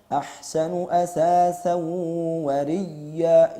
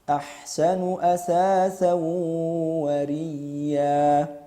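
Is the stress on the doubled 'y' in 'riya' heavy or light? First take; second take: heavy; light. First: The doubled 'y' is pressed with heavy, exaggerated force. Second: The doubled 'y' gets a light, gentle push. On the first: The speaker calls it wrong. "Bukan demikian, ... ini berlebihan" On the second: The speaker calls it right. "dengan lembut tanpa berlebihan. Silakan disimak yang tepat"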